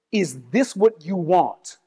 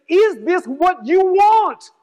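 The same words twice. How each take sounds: First: Slow, low, measured question; quote in own voice. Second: Slow, raised-pitch, drawn-out challenge; emphatic preached question. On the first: Retelling the bishop's question to the congregation in own voice, slowly. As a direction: ask it slowly, without doing an impression. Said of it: "say it in my own voice". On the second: Preacher re-enacting the bishop's question to the congregation, slow and emphatic. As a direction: preach the quoted question, stretching each word. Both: Retold or imitated.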